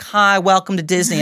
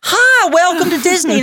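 First: The greeting sounds flat and unenthusiastic. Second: The greeting sounds lively and enthusiastic. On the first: This is the greeting the worker was giving. The speaker calls it wrong. "what you were doing looked a little like" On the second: This is the greeting the manager wants. The speaker calls it right. "And I'd love to see"

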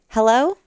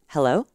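First: The voice is tense, high and nervous. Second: The voice is relaxed, low and resonant.

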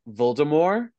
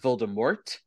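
First: The final T is not pronounced, French-style. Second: The final T is clearly pronounced. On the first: "giving it like a little French, like that Voldemort ... you don't pronounce the T" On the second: "not Voldemort"

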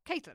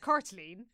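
First: The name begins with a 'Kate' sound. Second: The name begins with a 'Cort' sound. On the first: "how you pronounce the name that I know that they want us to say" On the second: "if we were pronouncing this properly, the Irish way"

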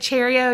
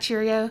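First: The first part sounds like 'cherry'. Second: The first part sounds like 'cheery'. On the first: "I said Cheerio" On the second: "not Cheerio"

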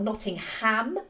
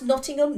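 First: The final syllable 'ham' is emphasised. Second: The final syllable 'ham' is not emphasised. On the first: The speaker calls it wrong. "not Nottingham, like the movie seems to suggest it is" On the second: The speaker calls it right. "which is pronounced Nottingham"

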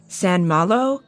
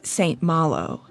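First: It is said the French way, as one word. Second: It is said the English way, as two words. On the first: "with a French pronunciation like San Malo, like it's one word" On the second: "how I most commonly heard it"

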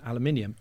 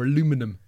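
First: It is said in a British pronunciation. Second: It is said in an American pronunciation. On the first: This is the speaker's own usual way of saying it. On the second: Someone else insists on saying it this way.

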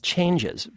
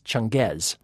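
First: It sounds like the English word 'changes'. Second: It does not sound like the word 'changes'. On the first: The speaker calls it wrong. "keeps pronouncing as changes" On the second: The speaker calls it right. "but in fact it's not. It's Changez"

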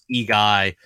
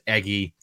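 First: The name is said as two parts, E-guy. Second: The name is said as one word, Eggy. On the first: The speaker calls it wrong. "even though it's E-Guy" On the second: The speaker calls it right. "but you pronounce it Eggy"

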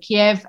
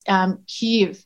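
First: The name is given its Russian pronunciation. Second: The name is given its Ukrainian pronunciation. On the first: "was the Russian pronunciation" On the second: "it's Kyiv in Ukrainian"

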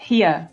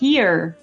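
First: The R is dropped, New York style. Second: The R at the end is pronounced.

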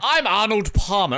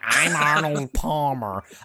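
First: It is said in an English accent. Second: It is said in an American accent. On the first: The speaker calls it wrong. "It wasn't like" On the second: The speaker calls it right. "It was more like, ... I thought that was an American accent"

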